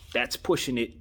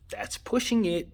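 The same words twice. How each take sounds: First: Said in the usual way. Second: Much higher, incredulous second take on "That's pushing it."; raised, disbelieving "That's pushing it."; emphatic repeat. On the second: Real, not acted. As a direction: lift the repeat up high, like you can't believe it.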